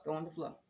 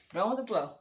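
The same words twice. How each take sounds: First: Going with the flow repeated much softer, under the breath; muttered to herself. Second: Said in the usual way. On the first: Retold or imitated. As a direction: mumble it as a private reminder.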